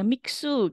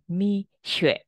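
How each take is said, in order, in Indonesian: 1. Nama ini memiliki bunyi k sebelum su. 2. Nama ini memiliki bunyi seperti sh, tanpa k. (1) "saya biasanya bacanya Miksu gitu" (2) "kalau nggak salah sih bilangnya Misyue"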